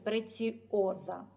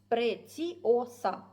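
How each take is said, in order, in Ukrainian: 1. Приголосний перед останнім голосним — z. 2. Приголосний перед останнім голосним — s. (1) "чомусь ми називаємо цей бісер «Преціоза»" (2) "правильно, як вона вимовляє, «Преціоса» через букву «Сі»"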